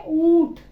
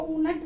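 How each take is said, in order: First: "ऊंट" loud, one nasalised syllable; poprawna wymowa. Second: "ऊनट" as "oo-nat", two syllables; błędna wymowa. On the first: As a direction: punch out "ऊंट" with oo through the nose. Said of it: "इसको क्या पढ़ेंगे?". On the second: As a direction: sound a separate "na" in "ऊनट". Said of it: "नहीं पढ़ेंगे". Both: Shown as a demonstration.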